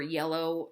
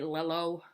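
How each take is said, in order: First: The word begins with a Y sound. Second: The word begins with an L sound. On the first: The speaker calls it right. "yellow, the, that Y sound" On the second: The speaker calls it wrong. "they'll say lello"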